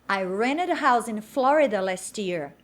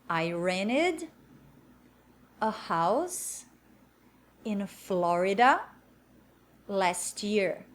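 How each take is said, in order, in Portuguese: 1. A frase é dita em velocidade normal. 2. A frase é dita devagar.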